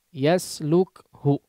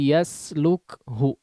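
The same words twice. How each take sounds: No difference in how they are said.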